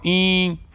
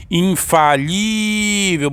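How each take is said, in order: First: "Infalível" broken into IN, FA, LI-vel with pauses; separated syllables. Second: "Infalível" with a very long, higher LI; stress on LI. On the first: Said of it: "Bora separar". ("Infalível" separando as sílabas com pausas) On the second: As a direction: hold the LI in "Infalível". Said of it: "a sílaba mais forte é que o li". ("Infalível" com o LI bem esticado) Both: Shown as a demonstration.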